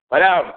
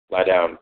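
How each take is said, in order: First: Raised, high, loud order to a dog; higher and louder dog command; exasperated command. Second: Said in the usual way. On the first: Real, not acted. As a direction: call it out sharply, fed up.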